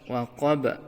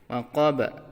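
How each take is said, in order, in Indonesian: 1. Huruf b terakhir dilepaskan dengan pantulan yang bergema. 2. Huruf b terakhir dilepaskan dengan pantulan yang bergema.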